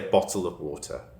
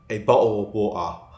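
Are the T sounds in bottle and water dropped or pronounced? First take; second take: pronounced; dropped. First: The T sounds are clearly pronounced in both words. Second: The T sounds are dropped from bottle and water. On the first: "But I do pronounce my T's" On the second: "don't pronounce those T's"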